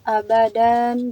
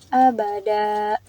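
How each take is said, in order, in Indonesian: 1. Kata ini berakhir dengan bunyi n. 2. Kata ini berakhir dengan vokal terbuka. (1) "Asalnya abadan" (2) "Jadi abada gitu"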